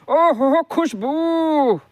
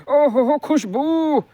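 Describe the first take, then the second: Both takes have the same delivery.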